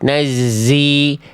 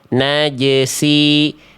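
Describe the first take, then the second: First: The j sound is replaced by a z sound. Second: The z sound is replaced by an s sound. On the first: "jimnya yang ke bawah jadi huruf zai" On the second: "zai-nya ketukar jadi huruf sin"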